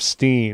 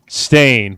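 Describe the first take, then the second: First: The vowel is pronounced like 'steen'. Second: The vowel is pronounced like 'stain'. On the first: The speaker calls it wrong. "instead of Steen" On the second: The speaker calls it right. "it's S T A I N. Stain"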